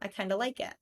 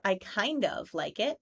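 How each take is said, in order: First: 'Kind of' is reduced to 'kinda' with a schwa. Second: 'Kind of' is said in full, with a clear 'of'. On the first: The speaker calls it right. "It's much easier to say I kinda" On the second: The speaker calls it wrong. "That feels very forced"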